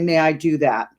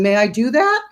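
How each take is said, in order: First: The pitch falls at the end. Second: The pitch rises at the end. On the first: It sounds like just talking, not asking. The speaker calls it right. "put your chin down on your chest and say" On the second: It sounds like asking permission. The speaker calls it wrong. "instead of inflecting up when you're saying"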